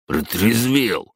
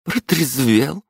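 First: Slow falling grumble; grumbled. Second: Slow rising stern question. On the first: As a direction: grumble it sulkily. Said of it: "буркнул он". (буркнуть угрюмо) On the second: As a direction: ask it pointedly. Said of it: "спросила мама". (строгий вопрос) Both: Acted.

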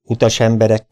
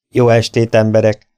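First: Said in the usual way. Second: Calls out the greeting over the noise; loud greeting. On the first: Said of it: "Utas emberek vs Jó estét emberek". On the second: Acted. Stranger greets the saloon crowd, calling out loud. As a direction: announce yourself to a rowdy room.

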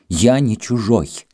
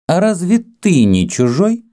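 First: Slow, high, falling retort; indignant denial. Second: High, haughty rising question. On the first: Greek insists to Kama he belongs, indignantly. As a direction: deny it hotly and firmly. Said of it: "снова вспыхнул грек". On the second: Kama, composed now, to the Greek, haughtily. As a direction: challenge him from above. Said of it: "спросила она надменно". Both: A narrator's reading.

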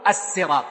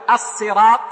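First: الصراط with a heavy, emphatic ص at the start; emphatic sad. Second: الصراط with a plain light s (سين) at the start; sin for sad. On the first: Teacher shows students the sad variant, الصراط with emphatic ص. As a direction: say الصراط with full dark sad, not thin s. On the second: Teacher shows students the sin variant, الصراط with plain s. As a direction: say الصراط with thin S, not emphatic ص. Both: Shown as a demonstration. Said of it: "يعني، بالسين والصاد".

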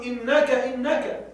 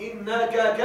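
First: Said in the usual way. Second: إنك ك with the ك repeated alone; wrong doubled suffix. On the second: Shown as a demonstration. Teacher shows the wrong form to students: إنك ك with a stray ك. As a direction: say إنك then a lone ك. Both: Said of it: "ولا تقل".

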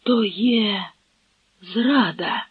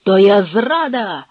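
First: Halting, stunned echo; dazed repetition. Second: Loud cry of treason; emphatic, raised exclamation; called out. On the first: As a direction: repeat it blankly, word by word. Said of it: "— безтямно повторив Шемберг". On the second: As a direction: call out the alarm. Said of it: "— гукнув шляхтич". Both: A narrator's reading.

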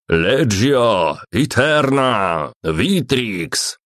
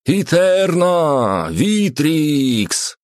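First: Gruff barked parade orders; barked command. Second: High drawn-out roared chant; chanted, roar it slowly like a legion in unison; chanted battle cry. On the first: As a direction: bark it like a centurion on parade. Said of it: "рявкнул Центурион". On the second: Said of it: "слитно вторили ему все остальные бойцы". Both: A narrator's reading.

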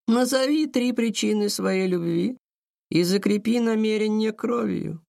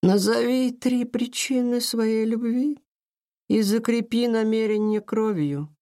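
First: High, echoing ethereal call; otherworldly voice. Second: Slow, high echoing ethereal voice; otherworldly voice. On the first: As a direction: intone it like a spirit. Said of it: "незнакомым потусторонним голосом". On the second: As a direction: intone it like a spirit, slowly. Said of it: "незнакомым потусторонним голосом продолжила". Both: A narrator's reading.

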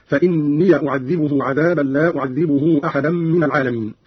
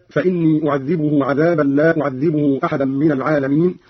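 First: فإني ends in "-ya", "fa-innee-ya"; fatha on the ya. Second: Said in the usual way. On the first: Shown as a demonstration. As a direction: say "fa-inniya" before أعذبه for فإني. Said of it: "قرأ قالون بفتح ياء الإضافة هكذا". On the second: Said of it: "بفتح ياء الإضافة".

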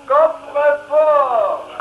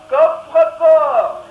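First: Coffrefort repeated very slowly and loud. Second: Coffrefort drawn out slowly and loudly; slow announcement. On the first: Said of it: "Ik herhaal". (coffrefort nog trager herhaald) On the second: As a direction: say coffrefort slowly, loud and grand. Announcer names the coat. (coffrefort langzaam en luid aangekondigd) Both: Acted.

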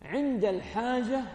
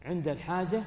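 First: عند الحاجة drawn out slowly, pitched higher, weight on عند; slow emphasis. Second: Said in the usual way. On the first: Shown as a demonstration. Teacher stressing عند الحاجة to students, slow and higher. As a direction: lean on عند الحاجة, slowing right down.

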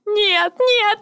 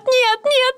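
First: «нет, нет» высоко, в рыданиях; оба «нет» истерично, с падением; toddler tantrum. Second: «нет, нет» ещё выше, на грани крика; взвинтить «нет, нет» выше, почти криком; toddler tantrum. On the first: («нет, нет» в истерике, высоко) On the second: («нет, нет» ещё выше, срываясь) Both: Acted. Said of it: "Истерика охватила меня".

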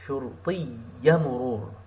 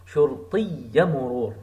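First: شرطي مرور quick and joined; faster linked take. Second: شرطي مرور run together with no gap; words linked. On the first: Teacher repeating the linked phrase faster. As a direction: rattle off شرطي مرور connected. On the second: Teacher linking words for the class. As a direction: join شرطي مرور smoothly. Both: Shown as a demonstration. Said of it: "Like you are connecting these words".

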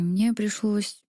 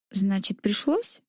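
First: Said in the usual way. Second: Sharp, irritated questioning hiss. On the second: A narrator's reading. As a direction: hiss it back in annoyance. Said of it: "шипя от раздражения".

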